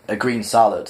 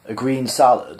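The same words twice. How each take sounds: First: Firm, insistent "A green salad" with a falling end; emphatic. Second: Disapproving. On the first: Arthur refusing the animal's liver, emphatic and firm. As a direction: put your foot down on "salad". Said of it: "said Arthur emphatically". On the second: The animal mocking Arthur's order, disapproving echo. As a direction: repeat it back with rolled-eye disdain. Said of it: "rolling his eyes disapprovingly at Arthur". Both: Acted.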